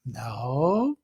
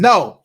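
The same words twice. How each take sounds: First: The word is said in a gentle, concerned voice. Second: The word is said in a harsh, warning voice. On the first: The speaker is concerned, with no punishment. "no with a gentle warning of concern" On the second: A punishment may follow. "no with a harsh voice, a warning voice"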